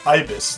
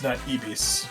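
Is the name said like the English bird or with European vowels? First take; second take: English bird; European vowels. First: It is pronounced like the English bird name. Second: Its vowels are read the European way. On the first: The speaker calls it right. "it is pronounced uh, Ibis" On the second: The speaker calls it wrong.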